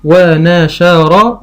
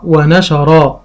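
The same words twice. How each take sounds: First: ونشر stretched out very slowly, rising at the end; very slow sounding out. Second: Said in the usual way. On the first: Shown as a demonstration. Teacher sounding out for a child, slowly. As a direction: draw ونشر out. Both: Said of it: "فيقول قطع".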